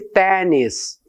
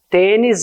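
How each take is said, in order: First: The first vowel is open. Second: The first vowel is closed.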